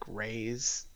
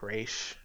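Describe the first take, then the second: First: The name sounds like the word 'raise'. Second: The name does not sound like 'raise'. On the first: The speaker calls it right. "it kind of sounds like Ra's, ... but rise or raise" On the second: The speaker calls it wrong. "not like Ra's"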